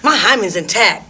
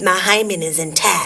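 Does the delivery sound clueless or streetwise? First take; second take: streetwise; clueless. First: It sounds streetwise and confrontational, not clueless. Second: It sounds clueless and eye-rolling, like a sheltered girl. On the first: "That's a different tone" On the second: "Her rolling her eyes, like clueless"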